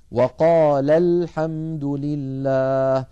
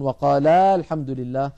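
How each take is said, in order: First: "وقال الحمد لله" recited slowly, final vowel of وقال kept short; correct unstretched link. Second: "وقال الحمد لله" with the end of وقال wrongly drawn out to a long aa; wrong overstretched vowel. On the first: Teacher showing students the right link, "وقال" ending short. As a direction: link وقال straight into الحمد without stretching its last vowel. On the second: Teacher imitating his brothers' mistake, "وقال" ending overlong. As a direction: stretch the last vowel of وقال before الحمد. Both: Shown as a demonstration. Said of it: "ولا نمطه كما يفعل بعض إخواننا".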